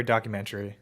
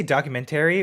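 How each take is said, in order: First: "documentary" squeezed to end in TREE. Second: "documentary" with TERRY as its own two syllables; full -tary ending. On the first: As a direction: say "documentary" as docu-MEN-tree. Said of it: "tree doesn't really make sense". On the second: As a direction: say "documentary" as docu-men-TERRY. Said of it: "do you say documentary or documentary". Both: Shown as a demonstration.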